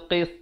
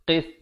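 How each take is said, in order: Both takes have the same delivery.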